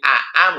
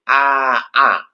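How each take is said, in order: First: Two glottal stops follow with no vowel inserted between. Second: A long vowel is inserted between the two glottal stops. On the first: "Jadi Aa menjadi" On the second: "dimasuki alif"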